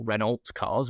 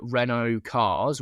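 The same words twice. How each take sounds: First: Renault said "REN-olt", L and T sounded; spelling pronunciation. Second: Renault said "REN-oh", silent L and T; French-style pronunciation. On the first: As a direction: pronounce the L and T in Renault. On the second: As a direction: say Renault with an open "oh" ending. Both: Shown as a demonstration. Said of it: "however you're supposed to say it".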